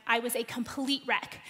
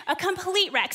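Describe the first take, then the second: First: Said in the usual way. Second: Laughing emphasis. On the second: Real, not acted. Mom laughs at herself as rookie parent: laughing repeat.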